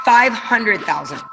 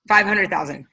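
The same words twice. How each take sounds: First: Slow, weighty reveal of "Five hundred thousand"; dramatic reveal. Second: Said in the usual way. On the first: Shown as a demonstration. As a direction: let "Five hundred thousand" land slowly, each word weighed. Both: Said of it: "Anybody wanna know?".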